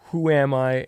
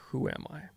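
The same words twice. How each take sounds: First: It is asked intensely and with serious fervor. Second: It is asked lightly and with playful curiosity.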